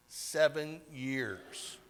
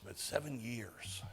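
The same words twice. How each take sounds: First: Seven slow and drawn out, pitched up; stress on seven years. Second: Softly. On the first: Telling of a soldier's long hospital stay, dwelling on Seven. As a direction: lean hard on Seven, slowly. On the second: Closing the list of durations. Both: Real, not acted.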